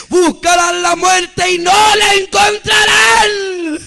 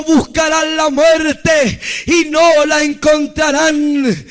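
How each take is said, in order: First: Slow, higher, straining proclamation; impassioned preacher's climax, long drawn out; climactic prophetic cry. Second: Slow, weighty preaching delivery; measured, emphatic warning from God; solemn pronouncement. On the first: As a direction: wail out the warning, stretching the words. Repeated pronouncement at climax. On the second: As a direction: declare it as slow prophecy. First take of divine pronouncement. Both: Retold or imitated.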